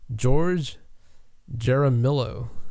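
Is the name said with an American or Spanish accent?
American. The name is said with a hard American accent.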